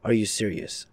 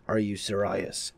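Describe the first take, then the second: First: Said in the usual way. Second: Slow, "serious" said as "ser-EYE-us"; drawn-out "serious". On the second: Real, not acted. Repeats question, stretching the word.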